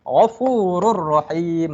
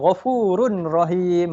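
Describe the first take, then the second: First: The n sound merges into a doubled r. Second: The n sound is kept before the r. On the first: The speaker calls it right. "Contohnya Ghafurur Rahim" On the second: The speaker calls it wrong. "dia akan baca Ghafurun Rahim"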